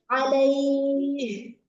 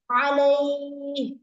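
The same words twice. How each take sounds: First: The final h has clear audible breath. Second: The final h is clipped without audible breath. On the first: The speaker calls it right. "Padahal harusnya" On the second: The speaker calls it wrong. "suka gitu doang"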